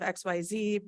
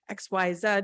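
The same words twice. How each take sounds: First: The last letter is said the American way. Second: The last letter is said the Australian way.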